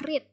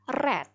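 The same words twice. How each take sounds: First: It has the present-tense pronunciation of the word. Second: It has the past-tense pronunciation of the word. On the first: It is the base form of the verb. "Verb pertamanya adalah read" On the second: It is the past form of the verb. "tetap seperti ini tulisannya, tapi bacanya read"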